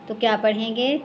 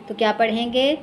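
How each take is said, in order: The two takes are said the same way.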